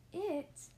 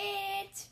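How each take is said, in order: First: Higher-pitched, questioning echo at normal volume; teacher's puzzled query. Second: High, held-out holler; storybook shout, high and sustained. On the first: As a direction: repeat it back as a baffled question. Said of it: "said Missus Edwards". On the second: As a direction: holler it proudly across the classroom. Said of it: "hollered Amelia Bedelia". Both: A narrator's reading.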